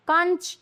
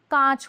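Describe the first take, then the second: First: कंच with short vowel and full "n"; higher कंच said as "kanch"; wrong pronunciation. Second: कांच with long nasalised vowel; correct pronunciation. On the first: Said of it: "ये गलत है". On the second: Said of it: "कांच होता है". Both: Shown as a demonstration.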